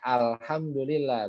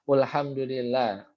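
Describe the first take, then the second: First: The word begins with the vowel a. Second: The word begins with the vowel u. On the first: The speaker calls it right. "dibacanya alhamdulillah" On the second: The speaker calls it wrong. "atau ulhum ulhamdulillah"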